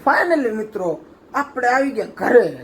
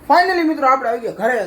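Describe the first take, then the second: First: It is said slowly and calmly. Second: It is said faster and more lively. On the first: "ઘણું ધીમું થઈ ગયું" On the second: "ઉભા થઈ જાઓ"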